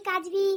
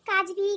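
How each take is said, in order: Both takes have the same delivery.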